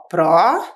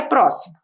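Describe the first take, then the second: First: "pró-si-mo" split into three syllables with long pauses. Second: Said in the usual way. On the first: Shown as a demonstration. Teacher dividing a word for pupils, "pró-si-mo" syllable by syllable. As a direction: say "pró-si-mo" one separate syllable at a time. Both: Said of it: "Nós vamos separar a palavra em sílabas".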